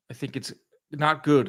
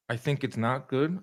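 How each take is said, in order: First: Said in the usual way. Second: "I think it's not good" with a rise on GOOD, softer; questioning repeat. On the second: Real, not acted. Host rereads a viewer's comment on Usyk Wardley, questioning, softer.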